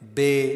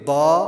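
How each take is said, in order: First: It is said in an Urdu accent. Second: It is said in an Arabic accent. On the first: The speaker calls it wrong. "जिस तरह उर्दू के अंदर हम पढ़ते हैं" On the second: The speaker calls it right. "बल्कि इसको हम यूँ पढ़ेंगे"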